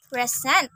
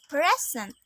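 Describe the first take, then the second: First: PreSENT, second syllable stressed; verb stress. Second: PREsent, first syllable stressed; noun stress. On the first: Teacher showing learners the verb Present, end-stressed. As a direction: say Present with the weight on its last syllable. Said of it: "a verb". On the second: Teacher showing learners the noun Present, front-stressed. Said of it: "a noun". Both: Shown as a demonstration.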